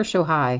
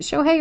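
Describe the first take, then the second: First: "Shohei" ending in "high". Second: "Shohei" ending in "hay". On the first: Host checking a player's first name, "Shohei" as SHO-high. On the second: Host checking a player's first name, "Shohei" as SHO-hay. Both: Shown as a demonstration. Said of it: "Is it Shohei or Shohei?".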